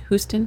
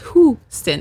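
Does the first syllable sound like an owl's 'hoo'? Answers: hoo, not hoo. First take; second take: not hoo; hoo. First: The first syllable does not sound like 'hoo'. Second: The first syllable sounds like an owl's 'hoo'. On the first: The speaker calls it wrong. "Did I say that wrong again?" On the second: The speaker calls it right. "like the bird"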